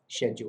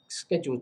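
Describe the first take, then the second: First: The word is said a non-American way. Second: The word is said the American way. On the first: "if you prefer that pronunciation" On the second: "I prefer the American one"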